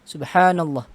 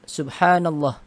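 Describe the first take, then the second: First: The vowel in 'llah' is cut short. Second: The vowel in 'llah' is cut short.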